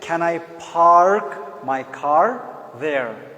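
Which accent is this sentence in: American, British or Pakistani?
American. It is spoken with an American accent. "American will say"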